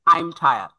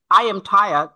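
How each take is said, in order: First: "I'm" in one syllable; contracted form. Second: "I am" as two clear words; full form. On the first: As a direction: run "I am" into "I'm". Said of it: "that means I'm". (সংক্ষিপ্ত "I'm") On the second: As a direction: keep "I am" uncontracted. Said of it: "how to express these sentences". ("I am" পূর্ণ রূপে) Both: Shown as a demonstration.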